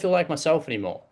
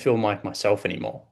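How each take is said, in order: First: The tone is light, casual and offhand. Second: The tone is low, heavy and downcast. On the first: The speaker is not touching the real feeling. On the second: The speaker is telling the real, painful truth.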